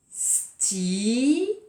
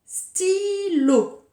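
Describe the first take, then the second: First: Stylo split into sty-lo beats; syllable by syllable. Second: Said in the usual way. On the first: Shown as a demonstration. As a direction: say Stylo slowly while tracing each round. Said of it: "Je dis bien le mot pendant que je trace mon rond". (Stylo scandé lentement) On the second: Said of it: "avec le mot".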